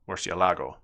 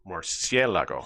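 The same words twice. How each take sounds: First: The stress falls on the syllable la. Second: The stress falls on the syllable cie. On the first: The speaker calls it wrong. "you would accent the la syllable" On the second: The speaker calls it right. "But that's not how you pronounce it"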